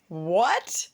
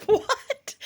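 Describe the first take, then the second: First: Said in the usual way. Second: High squeaky laughing question; incredulous laugh on the word; laughing what. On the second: Real, not acted. Laughing disbelief at the price.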